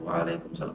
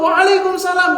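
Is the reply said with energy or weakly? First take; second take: weakly; energetic. First: The reply is said limply, without energy. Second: The reply is said with lively energy. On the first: The reply does not match the greeter's spirit. The speaker calls it wrong. "lemes ya" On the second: The reply matches the greeter's spirit. The speaker calls it right. "Harus kita jawab dengan semangat juga"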